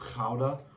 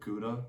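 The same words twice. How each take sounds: First: Gouda is said with a Dutch pronunciation. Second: Gouda is said with an American pronunciation.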